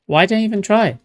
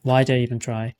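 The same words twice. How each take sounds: First: "Why did I even try?" higher and louder in exasperation; exasperated yell. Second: Said in the usual way. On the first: Real, not acted. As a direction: throw up your hands and yell "try". Repeats line, second time louder.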